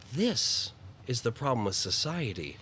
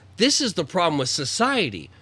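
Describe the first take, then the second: First: It is said in a sorrowful, hopeful tone. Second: It is said in an angry tone. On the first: The speaker is saddened but hopeful about the problem. "You're looking at it as as as as as sorrow and and optimism" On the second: The speaker is angry about the problem. "you're not looking at it as anger of being like"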